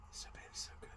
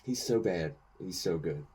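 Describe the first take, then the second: First: He's so bad, He's so good whispered under the breath; a soft whispered echo of the praise. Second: Said in the usual way. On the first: Real, not acted. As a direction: breathe the words as a hushed secret. Repeating praise, then whispered.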